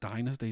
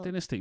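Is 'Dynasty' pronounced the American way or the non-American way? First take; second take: American; non-American. First: It is said the American way. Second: It is said the older, non-American way. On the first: This is how Americans say it. "but they call it Dynasty" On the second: This is how people here used to say it. "We used to call it Dynasty"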